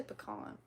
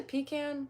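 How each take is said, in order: First: 'pecan' as puh-KAHN; soft first syllable, ah in the second of 'pecan'; own pronunciation. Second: 'pecan' as PEE-can, rhyming with 'can'; long ee, then a short a in 'pecan'; others' pronunciation. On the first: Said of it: "I say pecan". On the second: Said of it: "Do people say pecan?". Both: Shown as a demonstration.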